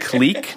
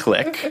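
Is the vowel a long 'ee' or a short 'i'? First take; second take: long ee; short i. First: The vowel is a long 'ee' sound. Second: The vowel is a short 'i' sound. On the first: This is the Canadian pronunciation. The speaker calls it right. "in Canada, we pronounce it clique" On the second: This is not the Canadian pronunciation. The speaker calls it wrong. "not click"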